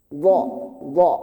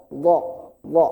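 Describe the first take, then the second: Both takes have the same delivery.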